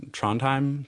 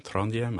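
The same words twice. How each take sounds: First: "Trondheim" as TRON-time; "Trondheim" in two English syllables, TRON-time; anglicised pronunciation. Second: "Trondheim" as TRON-dee-em; attempted local pronunciation. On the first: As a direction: say "Trondheim" with a hard T and an ending like "time". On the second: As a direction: say "Trondheim" tentatively in three syllables, ending dee-em. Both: Shown as a demonstration. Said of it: "I don't know how you're supposed to pronounce it".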